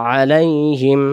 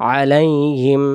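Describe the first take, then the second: Both takes have the same delivery.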